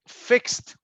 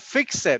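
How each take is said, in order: First: The ending is a single t sound. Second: The ending is an extra syllable. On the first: The speaker calls it right. "Remember, T" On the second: The speaker calls it wrong. "The other one, fix it"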